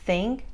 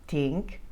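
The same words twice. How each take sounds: First: The word begins with a th sound. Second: The word begins with a t sound.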